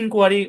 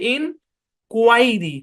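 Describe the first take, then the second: First: The second syllable has an 'air' vowel. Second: The second syllable has an 'eye' vowel. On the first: "কিন্তু এটাকে আমরা ইনকোয়ারি বলতে পারি, সমস্যা নেই" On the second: "এটা অরিজিনাল সাউন্ড হচ্ছে ইন কুয়াইরি, কু আই আই সাউন্ড আছে"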